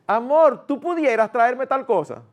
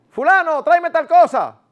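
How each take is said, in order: First: Sweet polite request. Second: High, loud curt command to her husband; bossy order. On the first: A wife asks her husband respectfully, sweet gentle request. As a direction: ask him kindly, like a sweetheart. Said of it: "¿No se oye mejor?". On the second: A wife orders her husband like a boy, curt loud command. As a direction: order him around like a kid. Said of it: "como si fuera un muchacho". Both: Shown as a demonstration.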